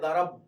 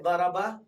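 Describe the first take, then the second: First: The word ends on a bare consonant. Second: The final consonant is followed by a vowel. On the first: The speaker calls it right. "you say darab" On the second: The speaker calls it wrong. "you don't say daraba"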